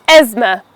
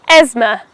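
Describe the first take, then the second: The two takes are said the same way.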